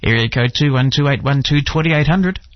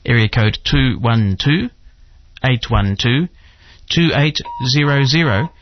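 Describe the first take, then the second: First: The number is said at normal speed. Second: The number is said slowly and deliberately.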